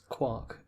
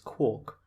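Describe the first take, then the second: First: The vowel rhymes with 'Mark'. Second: The vowel rhymes with 'Mork'. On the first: The speaker calls it right. "I'm going to pronounce it quarks, and this is correct" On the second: The speaker calls it wrong. "unless you pronounce Mark as Mork, you can't pronounce quark as quark"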